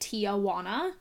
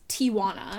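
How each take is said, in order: First: An extra vowel is added after the first syllable. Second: No extra vowel is added after the first syllable. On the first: The speaker calls it wrong. "people add an extra A" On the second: The speaker calls it right. "But it's Tijuana"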